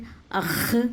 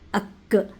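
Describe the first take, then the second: First: It ends in a raspy, scraping throat sound. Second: It ends in a plain k from the front. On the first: "अख़ ... ये बिल्कुल भी नहीं आएगा" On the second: "अक्, ये बिल्कुल भी नहीं आएगा"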